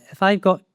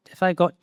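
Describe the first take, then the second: No difference in how they are said.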